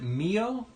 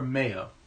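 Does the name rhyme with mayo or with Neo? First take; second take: Neo; mayo. First: The name rhymes with Neo. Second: The name rhymes with mayo. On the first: The speaker calls it right. "Like, like Neo" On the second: The speaker calls it wrong. "I ain't a condiment"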